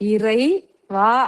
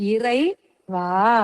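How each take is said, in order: First: It is split with a break between parts. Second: The same.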